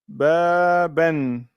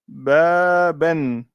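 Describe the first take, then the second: The two takes are said the same way.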